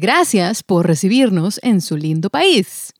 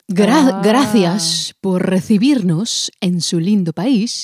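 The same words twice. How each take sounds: First: The c in gracias sounds like s. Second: The c in gracias sounds like th. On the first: This is how people in Mexico say it. "And we say" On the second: This is how people in Spain say it. "They say"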